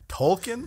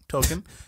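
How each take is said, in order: First: The name is said with an L sound. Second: The name is said without an L sound. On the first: The speaker calls it wrong. "I don't want to have to fucking announce enunciate the L" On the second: The speaker calls it right. "I don't like that L"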